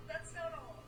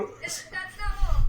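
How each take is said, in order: First: Said in the usual way. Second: Loud, higher hype voice; booming TV salesman's tease; infomercial pitchman. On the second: Acted. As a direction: sell it like a TV ad host. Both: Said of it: "Okay, Billy Mays".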